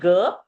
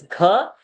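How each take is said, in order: First: The g is released without extra breath. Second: The g is released with extra breath. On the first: The speaker calls it wrong. "It is not ga" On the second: The speaker calls it right. "Gha is a mahaprana over there"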